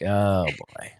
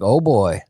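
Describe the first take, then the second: First: It sounds disappointed and dismayed. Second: It sounds impressed and admiring. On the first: The person is let down by what they see. The speaker calls it wrong. "not like" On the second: The person likes what they see. The speaker calls it right. "I would like to take my shirt off for my wife and have her be like"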